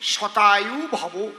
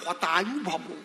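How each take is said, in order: First: The first word begins with an s sound. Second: The first word begins with an h sound. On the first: May you live a hundred years. The speaker calls it right. "এর সংস্কৃত কি?" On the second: May your life be destroyed. The speaker calls it wrong. "ওনার তো সব উচ্চারণ হয় না"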